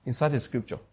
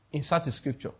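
No difference in how they are said.

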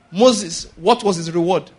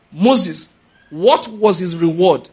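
First: Said in the usual way. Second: A touch louder, slower, with "what" leaned on; slower, weightier repeat. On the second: Acted. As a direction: drag out "what was his reward?" for effect. Rhetorical question asked twice.

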